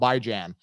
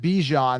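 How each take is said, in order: First: The first syllable sounds like 'bye'. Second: The first syllable sounds like 'bee'. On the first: This follows how the name is spelled. "just go with how it's spelled" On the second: This is how the player himself says it. "he pronounced it Bijan, that's how you pronounce it"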